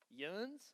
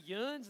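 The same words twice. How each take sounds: First: Softly puzzled YUNS with rising pitch; puzzled question. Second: Said in the usual way. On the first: Retold or imitated. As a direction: echo YUNS as a baffled, quiet question. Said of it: "and they're like". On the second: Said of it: "you say".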